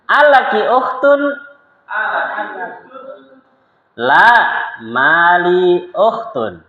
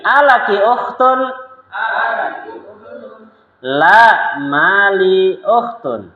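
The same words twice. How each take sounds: First: Slow, high, careful Arabic dialogue reading; slow lesson reading. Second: Slower, stretched repeat of the drill. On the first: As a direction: read each line slowly for students to repeat. Dialogue drill. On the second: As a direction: repeat it very slowly for the class. (ulangi dengan sangat pelan) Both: Shown as a demonstration.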